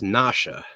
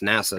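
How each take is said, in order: First: The middle consonant is an sh sound. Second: The middle consonant is a plain s sound. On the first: The speaker calls it right. "It's Nasha" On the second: The speaker calls it wrong. "It's not pronounced NASA though"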